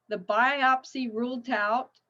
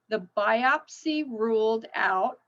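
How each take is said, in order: First: The word ruled ends with a T sound. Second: The word ruled ends with a D sound. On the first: "and I just put a T" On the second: "the E D ending should sound like a D"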